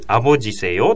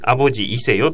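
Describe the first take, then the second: First: The vowel before seyo is dropped. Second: The vowel before seyo is pronounced. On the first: "E が省略されることもあります" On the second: "わざわざ言わずにね"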